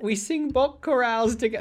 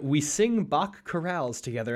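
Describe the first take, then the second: First: It is said in a put-on British accent. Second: It is said in an ordinary American accent.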